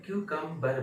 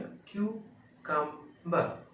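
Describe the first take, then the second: First: क्यूकम्बर with a sounded final r; American kyoo-kam-bar, r kept in क्यूकम्बर; American pronunciation. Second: क्यूकम्बर slowly, ending bah without r; British kyoo... kam... bah for क्यूकम्बर; British pronunciation. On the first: Teacher comparing American with British English, sounded-r demonstration. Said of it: "American English". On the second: Teacher showing the British version, slow r-less demonstration. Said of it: "British में". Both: Shown as a demonstration.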